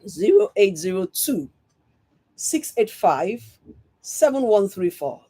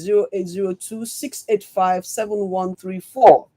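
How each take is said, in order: First: The number is said very slowly. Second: The number is said at normal speed.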